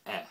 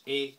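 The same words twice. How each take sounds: First: "E" as an open French è. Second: "E" as a closed French é. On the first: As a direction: say "E" wide like French è. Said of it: "grave accent as in French". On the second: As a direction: say "E" tight like French é. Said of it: "an E with an acute accent as in French". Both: Shown as a demonstration.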